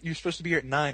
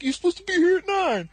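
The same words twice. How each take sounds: First: Said in the usual way. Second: High-pitched, exasperated imitation; mock indignant protest. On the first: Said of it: "I remember him saying". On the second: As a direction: shoot up very high and loud. Retold insistent protest from Dusty.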